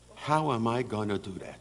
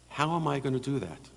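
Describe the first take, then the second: First: It sounds defeated, as if the task is impossible. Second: It sounds determined, as if planning to succeed. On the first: The problem seems too hard to overcome. The speaker calls it wrong. "My mother would never ever say" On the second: The problem will be overcome somehow. The speaker calls it right. "the difference in intonation was her approach to life"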